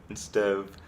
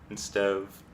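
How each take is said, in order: No difference in how they are said.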